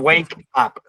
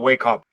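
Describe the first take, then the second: First: The two words are said separately. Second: The two words are linked together. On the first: The speaker calls it wrong. "No decimos wake up" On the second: The speaker calls it right. "sino wake up"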